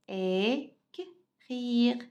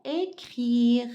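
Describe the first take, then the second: First: "Écrire" split slowly into é, k, rire with gaps; syllable by syllable. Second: Said in the usual way. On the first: Shown as a demonstration. Teacher sounding out for pupils, "Écrire" slowly split into its syllables. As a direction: break "Écrire" apart, pausing between the sounds.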